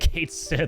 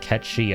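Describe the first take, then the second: First: The name is said as two words, 'Kate Sith'. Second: The name is said as two blended syllables, 'Ketchi'. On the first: This follows the way the name is written. "it's actually Kate Sith" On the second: This follows the original Gaelic pronunciation. "the Gaelic pronunciation is something slightly different. It's like Ketchi"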